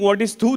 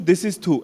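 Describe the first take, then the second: First: Said in the usual way. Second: A short spat thu; spitting thu sound. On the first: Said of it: "If you're thinking". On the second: Shown as a demonstration. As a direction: spit the syllable thu out.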